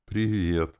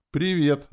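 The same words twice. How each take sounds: First: A touch of a smile, slightly raised pitch; smiling hello. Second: High, loud hello; hello pitched way up high; bright greeting. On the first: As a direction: greet back with a smile. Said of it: "улыбнулась она". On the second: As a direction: greet her high and strong. Greets on setting the witch down. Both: A narrator's reading.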